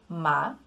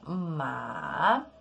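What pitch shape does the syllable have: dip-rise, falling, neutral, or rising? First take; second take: rising; dip-rise. First: The pitch rises from mid to high. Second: The pitch dips down and then rises. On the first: It means a kind of herb. "o segundo tom, ficando ma... sai daqui de uma altura média e sobe" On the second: It means horse. "É um som que desce e sobe... seria ma, significando cavalo"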